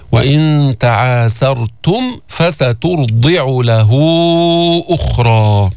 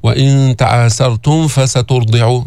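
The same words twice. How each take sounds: First: Slow chant, م of تعاسرتم closed clearly before ف; clear meem. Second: Meem of تعاسرتم blurred into the ف of فسترضع; mistaken ikhfa. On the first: Teacher giving the correct recitation, distinct م in تعاسرتم. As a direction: sound the م of تعاسرتم fully, then فسترضع. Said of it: "من نظهر الميم عند الفاء". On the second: Teacher showing the error, blurred م in تعاسرتم. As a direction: hide the م at the end of تعاسرتم before ف. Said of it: "حتى ما يصير معك إخفاء". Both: Shown as a demonstration.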